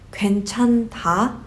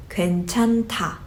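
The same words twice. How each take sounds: First: 괜찮다 spelled out, "gwaen-chan-da", separate ending; wrong pronunciation. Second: 괜찮다 said with h merged into "ta"; correct pronunciation. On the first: Teacher shows how not to pronounce it, wrong pronunciation. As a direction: keep the last syllable of 괜찮다 apart as written. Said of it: "you don't pronounce it as". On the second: Teacher shows how it goes, merged aspirated ending. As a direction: say 괜찮다 as "gwaen-chan-ta". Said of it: "it goes". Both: Shown as a demonstration.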